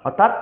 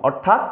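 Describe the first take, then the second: Both takes have the same delivery.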